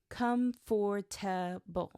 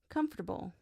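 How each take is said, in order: First: Every syllable is pronounced separately and fully. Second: It is said quickly with syllables reduced. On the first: The speaker calls it wrong. "he read it every letter" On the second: The speaker calls it right. "natives say it quickly"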